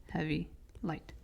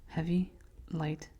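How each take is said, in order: No difference in how they are said.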